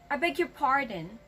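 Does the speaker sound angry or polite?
angry. It is said in an angry tone. The listener is annoyed by what was said. The speaker calls it wrong. "it actually sounds like you're angry"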